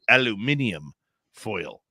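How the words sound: It is said with five syllables, alu-mi-ni-um.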